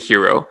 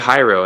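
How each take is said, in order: First: The first vowel sounds like 'ee'. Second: The first vowel sounds like 'eye'. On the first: The speaker calls it right. "it sounds like an E" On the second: The speaker calls it wrong. "it's not Hyro"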